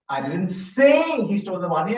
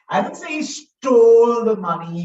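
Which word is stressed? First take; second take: say; stole. First: The word "say" carries the main stress. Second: The word "stole" carries the main stress. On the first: It was only suggested, not said. "I only suggested" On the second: He may have borrowed it instead. "He could have borrowed it"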